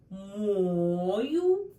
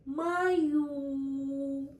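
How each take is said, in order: First: Мою with stress on the first syllable, МО-ю. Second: Мою with stress on the second syllable, мо-Ю. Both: Shown as a demonstration. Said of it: "different words with different meanings".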